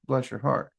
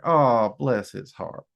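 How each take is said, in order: First: Quiet, gentle bless your heart; softer, tender sympathy; soft comfort. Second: Low, condescending bless his heart; insulting. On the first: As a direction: soothe them with it. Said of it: "we could be trying to comfort you". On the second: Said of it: "we could be insulting you pretty badly". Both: Shown as a demonstration.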